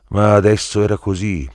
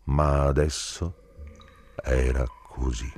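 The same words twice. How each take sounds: First: "ma adesso era così" detto più forte e più acuto; enfatico. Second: Said in the usual way. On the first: Acted. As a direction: martella la frase con forza. Ripresa enfatica della stessa frase. (affermazione forte e più acuta)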